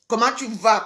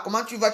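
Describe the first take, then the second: First: Mocking the caller. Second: Said in the usual way. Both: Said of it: "Comment tu vas de quoi?".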